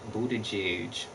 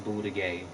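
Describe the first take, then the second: First: The last syllable ends with a 'j' sound. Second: The last syllable sounds like 'gay'. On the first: This is how the man himself pronounces it. The speaker calls it wrong. "he want to say Buttigieg" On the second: This is how the spelling reads. The speaker calls it right. "No, bitch, it's Boudigay"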